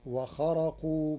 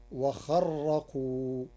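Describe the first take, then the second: First: وخرقوا with a light, single ra. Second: وخرقوا with the ra doubled and held, wa-kharraqu. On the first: Teacher quoting وخرقوا before doubling the ra. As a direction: say وخرقوا with a plain ra. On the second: Teacher demonstrating Warsh's doubled ra in وخرقوا. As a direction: lean hard on the ra of وخرقوا. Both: Shown as a demonstration. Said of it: "بتشديد الراء".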